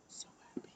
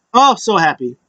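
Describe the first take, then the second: First: Barely audible whisper; whispered delight. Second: Said in the usual way. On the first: Real, not acted. Fan gushing over the show, whispered. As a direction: whisper it to yourself. Same words repeated in a whisper.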